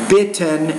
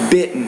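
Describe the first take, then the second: First: The t is a clear t. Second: The t is a glottal stop. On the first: The speaker calls it wrong. "You're saying" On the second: The speaker calls it right. "in American English, we say"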